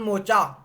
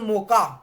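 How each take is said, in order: First: The middle consonant is a 'ch' sound. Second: The middle consonant is a 'k' sound. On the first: "मोका या मोचा आप कैसे भी pronounce कर सकते हैं" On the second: "मोका या मोचा आप कैसे भी प्रोनाउंस कर सकते हैं"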